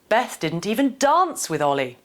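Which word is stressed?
dance. The emphasis falls on the word dance. The focus is on the kind of interaction. "the last one nudges us to consider different ways to interact with somebody"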